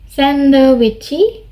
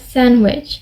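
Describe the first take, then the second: First: The word is said with four syllables. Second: The word is said with two syllables. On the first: This is how it is said as a Korean loanword. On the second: This is how it is said in English.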